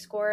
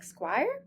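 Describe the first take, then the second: First: The name rhymes with the word more. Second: The name rhymes with the word fire. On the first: The speaker calls it right. "It is pronounced SCORE like you score a goal" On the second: The speaker calls it wrong. "many of you likely say something like Squire"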